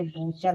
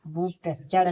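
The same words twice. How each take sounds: First: "बूचर" as boo-char, no separate t; silent-t reading of "बूचर". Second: "बूचर" with a separate t before ch; T sounded. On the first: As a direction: say "बूचर" straight into ch. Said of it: "यहाँ टी silent है". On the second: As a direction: say "बूचर" as boot-us-char. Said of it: "बूचर नहीं पढ़ेंगे". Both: Shown as a demonstration.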